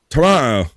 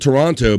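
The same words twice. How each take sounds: First: The second T is dropped entirely. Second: The second T is clearly pronounced. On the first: "but we say Toronto, Toronto. So you got no T in there" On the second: "I'm from Toronto"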